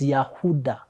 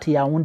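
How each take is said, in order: First: The name is said with a middle 'h' sound. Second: The name is said without a middle 'h' sound. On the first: The speaker calls it right. "it's Yahuda" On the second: The speaker calls it wrong. "It's not Yaoundé"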